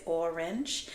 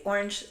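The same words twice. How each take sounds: First: "orange" said as /ɔɹɪndʒ/, with a clear short "i" in the second syllable, a bit softer; "orange" with a short i sound; another way to say orange. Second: "orange" said as /ɔɹəndʒ/, first vowel like "or", a short schwa in the middle; "orange" with a schwa in the second syllable; one way to say orange. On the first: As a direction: say "orange" as "or-inge". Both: Shown as a demonstration. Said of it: "how you say it".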